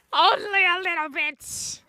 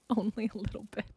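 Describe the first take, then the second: First: Drawn-out teasing admission. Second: Laughing admission. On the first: Pretend. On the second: Real, not acted. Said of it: "I'm not angry".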